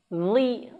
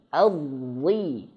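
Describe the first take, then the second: First: The consonant is pronounced thin and light. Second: The consonant is pronounced thick and heavy. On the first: The speaker calls it wrong. "salah ya, jangan sampai dia tipis" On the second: The speaker calls it right.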